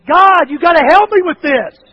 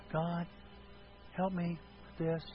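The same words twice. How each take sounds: First: Loud, high-pitched desperate plea; full-voiced cry for God's help. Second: Soft, low-energy prayer; small, subdued request to God; meek, quiet plea. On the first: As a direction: shout it to heaven as an urgent prayer. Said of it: "Or is it". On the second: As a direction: pray it timidly, with long hesitations. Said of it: "Does it mean this?". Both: Shown as a demonstration.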